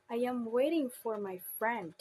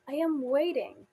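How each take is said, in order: First: Emphasis moved along to FRIEND at the end; tonic stress on friend. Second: WAITING emphasized, higher and louder phrase, falling at the end; tonic stress on waiting. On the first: Teacher demonstrates tonic stress, emphasis on friend. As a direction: stress friend as the last content word. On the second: Teacher demonstrates tonic stress, emphasis on waiting. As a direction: stress waiting as the last content word. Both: Shown as a demonstration. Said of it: "as an example of tonic stress".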